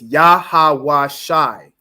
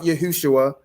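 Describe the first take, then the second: First: The name has only 'ah' and 'eye' vowel sounds. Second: The name contains an 'oo' vowel sound. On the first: The speaker calls it right. "You only have ah and I sounds" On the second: The speaker calls it wrong.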